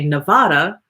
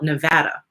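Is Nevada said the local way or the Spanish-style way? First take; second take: Spanish-style; local. First: Nevada is said with a Spanish-style vowel. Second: Nevada is said with the local vowel. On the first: The speaker is not from the area. The speaker calls it right. "which I believe is the correct pronunciation because I believe it's a a Spanish word" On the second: The speaker is from the area. The speaker calls it wrong. "the locals call it Nevada. And I'm like, that doesn't even sound right"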